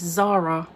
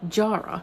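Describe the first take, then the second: First: The name begins with a z sound. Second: The name begins with a j sound. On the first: The speaker calls it wrong. "I was pronouncing this Zara" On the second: The speaker calls it right. "it is in fact Jara"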